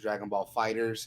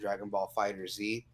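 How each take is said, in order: First: The last word sounds like plain 'fighters'. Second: The last word ends with a separate 'zee'. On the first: "I'll pronounce it Dragon Ball Fighters" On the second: "and Dragon Ball Fighter Z"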